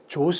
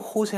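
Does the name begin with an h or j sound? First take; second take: j; h. First: The name begins with a 'j' sound. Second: The name begins with an 'h' sound. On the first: The speaker calls it wrong. "조스 하지 않고" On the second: The speaker calls it right. "호세 한다든지"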